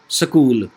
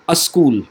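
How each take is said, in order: First: A short vowel separates the s and k sounds. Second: A vowel sound comes before the s sound. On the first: "a short vowel inserted between" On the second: "present one vowel sound before uh, sa"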